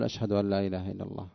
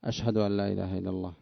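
The two takes are said the same way.

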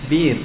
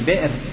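First: The glottal stop is replaced by a long i vowel. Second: The word has a glottal stop after the first consonant. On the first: "يجوز أن تقلب حرفا من جنس حركة ما قبلها" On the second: "في بئر"

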